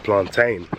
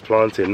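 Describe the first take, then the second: First: PLANTAIN with a long "tain" ending; plantain said plan-TAIN. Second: PLANTAIN with a short "tin" ending; plantain said plan-tin. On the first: Visitor mimicking the rejected way, plantain said plan-TAIN. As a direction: say "plantain" to rhyme with rain. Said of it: "have to tell the man". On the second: Visitor telling viewers the right way, plantain said plan-tin. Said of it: "not plantain". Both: Shown as a demonstration.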